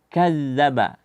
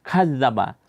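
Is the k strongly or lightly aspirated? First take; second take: lightly; strongly. First: The k has only a light breathy puff. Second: The k has an exaggerated breathy puff. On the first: The speaker calls it right. "tanpa memberikan sifat yang berlebihan" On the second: The speaker calls it wrong. "hamasnya jangan berlebihan, jangan dibaca ka"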